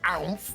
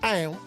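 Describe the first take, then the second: First: It is said in a plain accent. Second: It is said in a Southern Belle accent.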